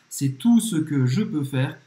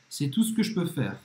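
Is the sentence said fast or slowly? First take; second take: slowly; fast. First: The sentence is said slowly. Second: The sentence is said fast.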